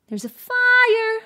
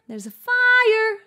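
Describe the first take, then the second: Both takes have the same delivery.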